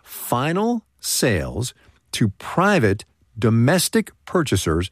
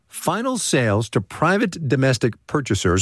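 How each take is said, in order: First: It is said very slowly. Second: It is said at normal speed.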